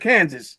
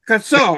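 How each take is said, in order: First: The name ends with a 'sas' sound. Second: The name ends with a 'saw' sound. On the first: The speaker calls it wrong. "Kansas got it wrong" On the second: The speaker calls it right. "They should be called Kassaw"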